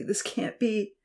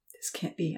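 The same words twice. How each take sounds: First: Softer, stunned, pleading disbelief; anxious repeat. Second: Quiet, worried disbelief; anxious murmur. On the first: Uncle repeating himself over the girl, anxious. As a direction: say it again, more lost. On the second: Uncle stunned beside the injured girl, quiet disbelief. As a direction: murmur it in shock. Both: A narrator's reading. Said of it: "Uncle Louis kept saying anxiously".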